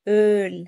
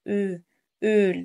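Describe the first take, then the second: First: The vowel is said with lips less rounded. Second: The vowel is said with lips tightly rounded. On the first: The speaker calls it right. "هي öl ö öl" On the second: The speaker calls it wrong. "لا مش عاوزاك تنطق مضموم"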